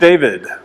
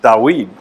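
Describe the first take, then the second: First: The name is said in its usual English form. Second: The name is said in its older original form.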